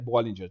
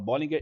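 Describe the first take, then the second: First: The name has an English-style pronunciation. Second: The name has a Brazilian Portuguese pronunciation. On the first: This is how the name is said abroad. "o nome é Bollinger" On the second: This is how everyone says it in Brazil. "todo mundo fala Bollinger"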